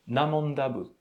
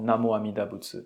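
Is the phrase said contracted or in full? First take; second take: contracted; full. First: The first words merge into a shortened form. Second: Every syllable of the phrase is said fully. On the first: It is an affectionate nickname showing closeness. "au lieu de prononcer Namo Amida Butsu, on peut prononcer Namanda Butsu" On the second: It is a formal, precise recitation. "d'une façon euh, très précise"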